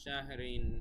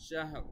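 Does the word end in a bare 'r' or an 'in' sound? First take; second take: in sound; bare r. First: The word ends with an added 'in' sound. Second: The word ends on a bare 'r' sound. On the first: "র দুই জের রিন" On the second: "এখানে আহ, যজম হয়ে যাবে"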